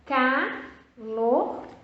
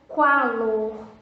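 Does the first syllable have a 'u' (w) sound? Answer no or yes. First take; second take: no; yes. First: The first syllable is plain 'ca' without a 'w'. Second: The first syllable is 'qua' with a 'w' sound. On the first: The speaker calls it right. "Só pode ser o C A" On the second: The speaker calls it wrong. "Tem o som do U"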